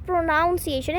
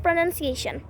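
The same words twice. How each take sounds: First: "pronunciation" with NOUN in the second syllable; mispronunciation. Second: "pronunciation" with a short NUN, not NOUN; correct pronunciation. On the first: Teacher showing learners the error, "pronunciation" said as pro-NOUN-ciation. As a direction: say "pronunciation" wrongly as pro-noun-see-ay-shun. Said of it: "ये गलत है". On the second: Teacher giving learners the right form, "pronunciation" said with NUN in the second syllable. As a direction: say "pronunciation" softly as pruh-nun-see-ay-shun. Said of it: "not pronunciation". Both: Shown as a demonstration.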